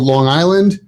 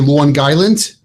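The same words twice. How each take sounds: First: It is said in a general American accent. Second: It is said in a strong New York accent.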